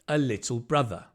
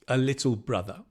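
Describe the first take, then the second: Both takes have the same delivery.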